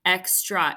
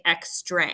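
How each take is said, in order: First: Said in the usual way. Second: "extra" ending in a long A, ex-tray; mispronounced demo. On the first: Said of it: "but we don't say extra". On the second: Shown as a demonstration. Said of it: "we don't say extra".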